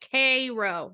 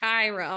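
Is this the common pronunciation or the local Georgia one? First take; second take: local; common. First: It is said the local Georgia way. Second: It is said the common, usual way. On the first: This is how the town's people say it. The speaker calls it right. "it is Cairo" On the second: This is the usual reading of the spelling. The speaker calls it wrong. "not Cairo"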